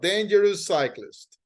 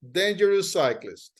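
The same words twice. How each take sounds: First: The shared s sound is said only once. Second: The same.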